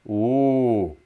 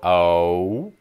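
First: The vowel is a steady pure monophthong. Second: The vowel glides as a diphthong. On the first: "Whereas they do it, it's like, ooh, like that" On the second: "When we non-Northern Midwesterners try to say the sound O, it's sort of O"

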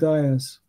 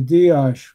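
First: The name ends with a soft 's' sound. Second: The name ends with an 'sh' sound. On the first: This is how the family in America says it. "they always said Dias with a soft S" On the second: This is how it is said in the original country. "in Hungary, they say Diash, where the S is pronounced like an SH"

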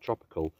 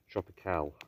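First: The word ends like the ordinary word tropical. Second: The word ends with an extra final sound. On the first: The speaker calls it wrong. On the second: The speaker calls it right.

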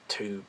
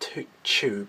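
First: The word begins with a plain 't' sound. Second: The word begins with a 'ch' sound. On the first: The speaker calls it right. "It's tube. But that sounds more Americanized" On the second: The speaker calls it wrong. "because you don't say tube, because it's not CH"

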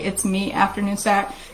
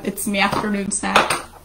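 First: It is said in her ordinary accent. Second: It is said in an Irish accent.

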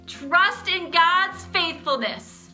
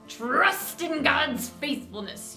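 First: It is said in a loud voice. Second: It is said in a pirate voice.

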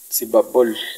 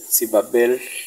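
First: The final vowel sounds unlike e, closer to o. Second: The final vowel sounds almost like e. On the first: This is how it is said in some places. "en algunos lugares se dice, yo he escuchado" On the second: This is the common city pronunciation. "casi una E. Sibabel, entre A y E, pero apretando los dientes"

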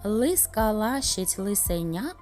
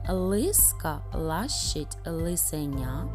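First: It is said at a very fast pace. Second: It is said a little faster than before. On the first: "ще швидше" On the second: "трішечки швидше"

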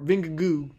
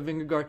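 First: The name ends with a soft 'goo' sound. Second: The name ends with a hard 'gard' sound. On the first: The speaker calls it right. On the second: The speaker calls it wrong.

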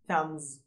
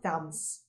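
First: The word ends with a z sound. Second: The word ends with an s sound. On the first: The speaker calls it right. "at the end you have a z sound" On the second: The speaker calls it wrong. "not s. So it's not thumbs"

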